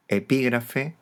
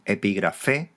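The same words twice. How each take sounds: First: "epígrafe" stressed on the syllable pi; esdrújula stress. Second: "epígrafe" stressed on the last syllable, fe, rising; Greek final stress. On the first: Teacher giving the Spanish derivative, antepenult stress on "epígrafe". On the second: Teacher citing the Greek original, final-syllable stress on "epígrafe". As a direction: say "epígrafe" as epigraFÉ. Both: Shown as a demonstration. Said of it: "la palabra derivada es esdrújula".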